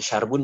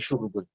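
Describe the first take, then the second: First: The first vowel is a. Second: The first vowel is u. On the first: "Bukan syarbun" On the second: "juga bukan syurbun"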